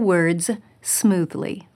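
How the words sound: A pause separates 'words' from 'smoothly'. It clearly means all the words, read smoothly. The speaker calls it right. "Did you notice I paused between words and smoothly?"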